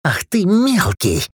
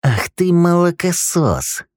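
First: High, slow furious cry; enraged outburst. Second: High, slow seething hiss; hissed insult. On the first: Acted. Dudley turns on Rick in fury, high and slow. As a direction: snarl it slowly. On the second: A narrator's reading. Dudley hisses at young Rick for calling the guard, high and slow. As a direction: spit the insult slowly. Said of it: "прошипел Дадли".

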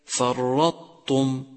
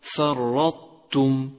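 First: Slow فرطتم with ت heavy like ط; wrong heavy taa. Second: Slow فرطتم with a thin ت after ط; correct light taa. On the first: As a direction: thicken the ت of فرطتم towards ط. (تفخيم التاء خطأً في فرطتم) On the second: (ترقيق التاء في فرطتم) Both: Shown as a demonstration. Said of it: "والصواب".

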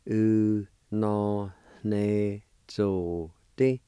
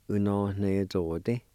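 First: U no ne zo te drawn out slowly. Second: Said in the usual way. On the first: Shown as a demonstration. Teacher slowly saying the whole word. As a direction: stretch U no ne zo te out. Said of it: "Sounds like this". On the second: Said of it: "pronounce these one more time".

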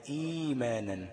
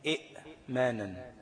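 First: "إيمانًا" with a stretched opening ee; smooth long i into manan in "إيمانًا"; long i replacing hamza. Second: Slow "إئمانًا", split by a glottal stop; short i, clear pause on the catch, then manan in "إئمانًا"; original sounded hamza. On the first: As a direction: hold the ee in "إيمانًا", no glottal stop. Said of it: "خلاص، تبقى". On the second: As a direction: break "إئمانًا" after the first hamza. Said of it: "أصلها إيه؟". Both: Shown as a demonstration.

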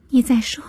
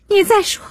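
First: Higher-pitched, held-back threat; first warning, tightly contained; tense warning. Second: High-pitched desperate threat; sharp, high outburst of defiance; escalated warning. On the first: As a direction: warn through rising anger. Girl threatens her mother, first warning. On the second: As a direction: throw the warning out, pitch leaping up. Girl repeats threat, escalating. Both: A narrator's reading.

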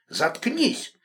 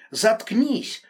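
First: Angry shout. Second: Loud, higher furious yell. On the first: Enraged man silencing her. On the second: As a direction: roar at her to shut up. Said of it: "заорал он". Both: A narrator's reading.

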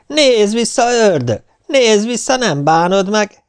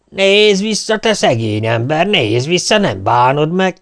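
First: Very high, loud teasing call; mocking shout. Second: High, loud taunting call; devil king shouting. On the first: Poor man mockingly calls after the fleeing devil, high and loud. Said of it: "eleget kiabálta". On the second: Devil king calls after the fleeing poor man, loud and taunting. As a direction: yell after him to lure him back. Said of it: "kiabál utána az ördögök királya". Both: A narrator's reading.

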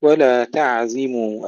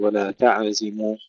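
First: Slow ولا تعزموا with a still, flowing عين; careful recited ولا تعزموا, smooth عين; unbounced ayn. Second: ولا تعزموا with an echo after the عين; faulty ولا تعزموا, عين bounced; wrongly bounced ayn. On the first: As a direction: hold the عين in تعزموا without a bounce. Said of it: "العين الساكنة لا نقلقلها". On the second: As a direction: add a tiny vowel after عين in تعزموا. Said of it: "لا نقول". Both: Shown as a demonstration.

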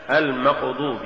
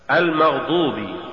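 First: المقضوب with ق where غ belongs; faulty reading of المغضوب as المقضوب; mispronounced غ. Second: Said in the usual way. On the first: Shown as a demonstration. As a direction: say المقضوب, a q stop replacing gh. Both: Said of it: "تقرأ لحنا".

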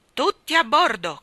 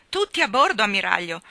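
First: Loud, high, abrupt order; curt admiral's shout; brusque command. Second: Spirited, emphatic echo of a command; forceful reply. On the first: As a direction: order everyone aboard sharply. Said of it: "comandò bruscamente". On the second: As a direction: call the order straight back with force. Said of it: "ella rispose con forza". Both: A narrator's reading.

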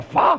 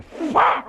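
First: High loud whip-crack sound. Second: High sharp whip-crack sound. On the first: The Roman whipping again, a loud crack. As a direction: snap the whip. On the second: The Roman whipping the mariquita, a sharp crack. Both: Retold or imitated.

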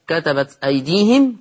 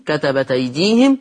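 First: Said in the usual way. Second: كتبت أيديهم linked as "katabataydihim"; hamza dropped. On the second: Shown as a demonstration. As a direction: drop the hamza of أيديهم, give its vowel to the ت. (كتبت أيديهم بنقل حركة الهمزة) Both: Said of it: "قرأ ورش بالنقل".

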